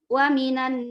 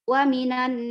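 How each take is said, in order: The two takes are said the same way.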